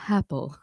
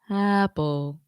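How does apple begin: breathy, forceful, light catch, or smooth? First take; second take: breathy; smooth. First: The vowel starts with an audible puff of breath. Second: The vowel starts smoothly with no catch or breath. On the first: "adding an H" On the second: "That would be a, a balanced onset, and that's typically not how we talk"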